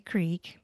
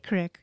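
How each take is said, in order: First: Said the common way, with a long vowel. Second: Said the Idaho way, with a short vowel.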